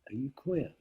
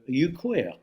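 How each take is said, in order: First: It is asked in a friendly, knowing tone. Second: It is asked in a hostile, accusing tone. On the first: Asking if someone belongs to the same group. "So you would say to someone" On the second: "if it was an accusation"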